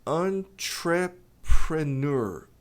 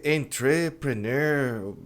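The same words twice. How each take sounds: First: Entrepreneur slow with stress on en; correct pronunciation. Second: Entrepreneur said slowly, as many do; the common mangled entrepreneur; wrong pronunciation. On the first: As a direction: hit the en in entrepreneur. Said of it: "A pronúncia é". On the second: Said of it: "Muita gente fala". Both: Shown as a demonstration.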